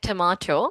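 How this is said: It is said with a British accent. "British people say it like tomato"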